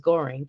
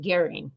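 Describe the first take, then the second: First: The first vowel sounds like 'oh'. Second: The first vowel sounds like 'air'. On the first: This is how the family was known to them. "we always knew it as" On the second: This is how some other people say the name. "Some people pronounce it"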